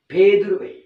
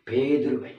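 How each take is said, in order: First: பேதுருவை called out higher and louder; stress on பேதுருவை. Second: Said in the usual way. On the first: Shown as a demonstration. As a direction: call out the name பேதுருவை. (பேதுருவை அழுத்தமாக)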